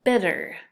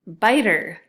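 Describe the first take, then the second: First: BITTER with a short i as in "sit"; short vowel. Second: Biter with a long i as in "bite"; long-i biter, louder; long vowel. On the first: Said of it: "this is a short vowel". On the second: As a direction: stress the long "eye" sound in biter. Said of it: "big difference between those two words". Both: Shown as a demonstration.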